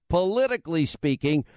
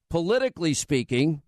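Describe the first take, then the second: First: Politically pressed harder than the rest; stress on politically. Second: Said in the usual way. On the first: Shown as a demonstration. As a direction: lean on the word politically. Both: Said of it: "I'm putting emphasis".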